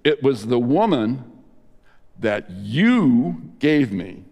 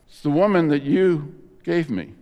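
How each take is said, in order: First: It is said in a blaming, accusing tone. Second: It is said in a flat, plain tone.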